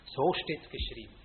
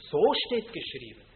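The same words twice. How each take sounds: First: So steht's geschrieben tossed off lightly, mocking; casual, scoffing So steht's geschrieben; dismissive mock quote. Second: So steht geschrieben said louder, steht stressed and falling; So steht geschrieben as a firm proclamation; read out boldly. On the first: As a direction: brush aside So steht's geschrieben as a sectarian phrase. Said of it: "das sagen alle Sektierer". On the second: Shown as a demonstration. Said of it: "das musst du weniger laut lesen".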